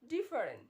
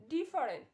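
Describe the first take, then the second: The two takes are said the same way.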